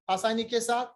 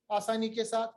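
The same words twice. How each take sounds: The two takes are said the same way.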